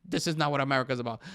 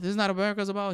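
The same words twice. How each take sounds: First: Just read his words back, deadpan; quoting the president, mock-flat. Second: Incredulous echo. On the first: Podcaster quotes the president's verdict, flat and mocking. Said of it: "Well, he said". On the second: Real, not acted. Podcaster repeats the president's line, stunned and incredulous. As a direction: throw his words back in disbelief. Echoing the quote in disbelief.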